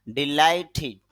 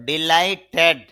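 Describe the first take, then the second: First: ডিলাইটেড ending in a short "-tid"; correct pronunciation. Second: ডিলাইটেড ending in a full "-ted"; wrong pronunciation. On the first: Teacher correcting the word for learners, carefully pronounced. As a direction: say ডিলাইটেড with i in the last syllable, "di-lai-tid". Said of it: "উচ্চারণটা হবে". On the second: Teacher showing learners what to avoid, mispronounced. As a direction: say ডিলাইটেড with an open e in the last syllable, "dee-lai-ted". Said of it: "এরকম হবে না". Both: Shown as a demonstration.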